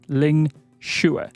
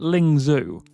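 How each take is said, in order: First: The second syllable sounds like 'shoe'. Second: The second syllable does not sound like 'shoe'. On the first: The speaker calls it right. "think of it like the word shoe" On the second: The speaker calls it wrong. "that isn't correct"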